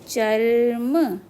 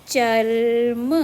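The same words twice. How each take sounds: No difference in how they are said.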